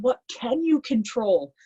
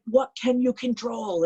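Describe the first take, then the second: First: Slow, higher stern question; retold coach yelling. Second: Slow, higher stern question again pressed; retold coach yelling. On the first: Coach gripping her shoulders, slow, raised demand. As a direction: press the question slowly like a coach. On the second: Coach yelling in her face, slow raised demand. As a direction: drive it home slowly as a coach. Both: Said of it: "he's yelling at me in my face".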